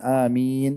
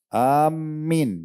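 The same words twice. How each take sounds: First: The vowel after the m is long. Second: The m sound is doubled. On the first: "tadi kan amin agak panjang" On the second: "mimnya pakai tasydid, itu nggak boleh"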